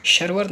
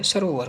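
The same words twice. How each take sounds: First: सरोवर squeezed to sharvar, no o; wrong missing vowel. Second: सरोवर with a clear long o; corrected vowel. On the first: Teacher showing the mistake, सरोवर as two syllables. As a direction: drop the o from सरोवर. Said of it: "सरोवर नहीं होता है". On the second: Teacher giving the correct word, सरोवर with clear ro. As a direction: say sa-ro-var for सरोवर. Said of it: "सरोवर होता है". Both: Shown as a demonstration.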